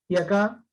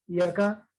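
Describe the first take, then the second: Both takes have the same delivery.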